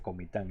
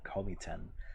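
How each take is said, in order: First: It is said with a native Spanish accent. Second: It is said with an American English accent. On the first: "Aquí se dice Comitán" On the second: "no quiera sonar muy gringo"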